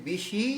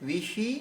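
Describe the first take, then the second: No difference in how they are said.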